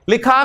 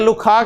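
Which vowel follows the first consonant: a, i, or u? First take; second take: i; u. First: The first vowel is a short 'i'. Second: The first vowel is a short 'u'. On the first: The speaker calls it right. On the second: The speaker calls it wrong.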